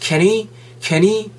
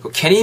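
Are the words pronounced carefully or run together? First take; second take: carefully; run together. First: Each word is pronounced fully and separately. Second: The words are reduced and run together. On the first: The speaker calls it wrong. "너무 정직하게 발음하지 마시고" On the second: The speaker calls it right. "요렇게"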